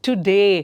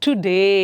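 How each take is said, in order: Both takes have the same delivery.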